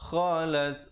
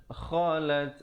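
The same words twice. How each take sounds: The two takes are said the same way.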